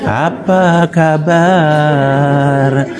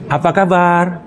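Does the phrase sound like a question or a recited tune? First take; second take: recited tune; question. First: It has a melodic, non-questioning recited tune. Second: It has a natural questioning intonation. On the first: It does not come across as a real question. The speaker calls it wrong. "bertanya dengan intonasi itu, lari kita" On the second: A real question is being asked. The speaker calls it right. "Dia punya intonasi"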